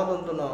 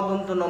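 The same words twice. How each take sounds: Both takes have the same delivery.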